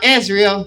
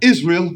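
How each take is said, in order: First: It is said in a SpongeBob voice. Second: It is said in a British accent.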